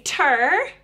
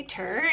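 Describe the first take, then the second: First: "ter" said clearly as a separate model syllable; last syllable alone. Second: "ter" repeated softer and lower; child's echo. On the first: Shown as a demonstration. Parent starting with that last syllable, "ter" modelled clearly. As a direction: model "ter" on its own, held slightly. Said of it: "you could say". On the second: Acted. Child copying the parent's last syllable, a softer echo. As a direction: echo "ter" softly after the model. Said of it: "they say".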